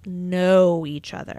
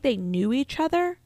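First: KNOW drawn out and louder; "know" stretched with extra weight; stress on KNOW. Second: Said in the usual way. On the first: Shown as a demonstration. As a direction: lean long and hard on "know". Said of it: "but they didn't, like".

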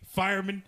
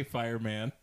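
First: Fireman as "FIRE-mun"; reduced last syllable. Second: Fireman as "fire-MAN", full short a; full MAN ending. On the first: Tim mocks the other pronunciation, fireman ending in "mun". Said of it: "I don't say fireman". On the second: Tim insists on his pronunciation, fireman with full "man". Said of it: "I say fireman". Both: Shown as a demonstration.

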